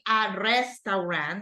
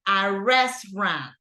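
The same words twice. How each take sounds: First: The word is pronounced the Spanish way. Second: The word is pronounced the English way.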